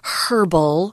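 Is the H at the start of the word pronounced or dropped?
pronounced. It starts with an H sound, British style.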